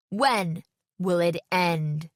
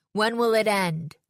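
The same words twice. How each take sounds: First: Very slow, word by word, with pauses; guttural slam poetry. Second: Raised, forceful cry in one run; guttural slam poetry. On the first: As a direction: draw out the last line for a dramatic finish. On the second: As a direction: demand it of the audience as a poet. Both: A narrator's reading. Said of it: "guttural voice I never would have recognized".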